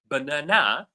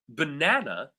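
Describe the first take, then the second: First: The stress is on the third syllable. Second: The stress is on the second syllable. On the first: "third syllable" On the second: "second syllable"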